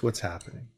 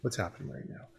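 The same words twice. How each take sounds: First: Gentle, much softer, calm question; soft jazz radio host. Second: "What's happening right now?" whispered, almost no voice; whispered jazz host. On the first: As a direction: ease the child into talking, softly. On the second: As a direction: drop to a hush to soothe the child. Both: Shown as a demonstration. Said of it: "put your jazz radio host voice on".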